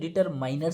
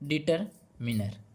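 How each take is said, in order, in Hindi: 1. तीसरे अक्षर में 'eye' स्वर है। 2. तीसरे अक्षर में छोटा 'i' स्वर है।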